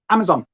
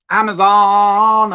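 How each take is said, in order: First: Said in the usual way. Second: Amazon stretched slow and loud; drawn-out Amazon. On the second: Shown as a demonstration. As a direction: sing out Amazon slowly, like a call.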